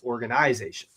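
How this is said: It is said with a British Canadian pronunciation. "That's a very British Canadian thing"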